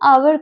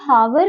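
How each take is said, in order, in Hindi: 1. यह शब्द स्वर ध्वनि से शुरू होता है। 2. यह शब्द h ध्वनि से शुरू होता है। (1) "ये जो एच है ये साइलेंट होता है" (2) "हावर नहीं करके"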